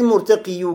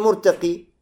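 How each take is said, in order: First: The word ends with an added yu sound. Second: The word ends with a plain i sound. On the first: The speaker calls it wrong. "Не говори муртакию" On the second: The speaker calls it right. "говори муртаки"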